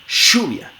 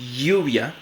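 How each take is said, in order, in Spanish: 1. La ll es una fricativa sorda parecida a sh. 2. La ll es una fricativa palatal sonora. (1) "como fricativa postal veolar sorda" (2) "una fricativa palatal sonora"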